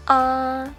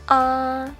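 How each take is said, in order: First: The pitch stays high and level throughout. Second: The same.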